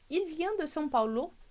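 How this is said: The pitch rises at the end. It is a question. "aqui estou fazendo uma pergunta"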